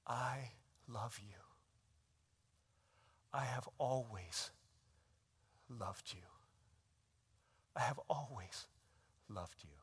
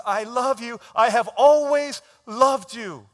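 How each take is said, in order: First: Barely voiced, slow and tender, fading to nothing; mouthed whisper. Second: Much higher and much louder, slow and stretched; preached proclamation. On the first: Father mouths to his daughter, soft whisper. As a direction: breathe it as if only she may hear. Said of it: "he mouths these words". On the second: Acted. Preacher voices God's love to the congregation, full-force shout. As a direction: ring it out to the back row.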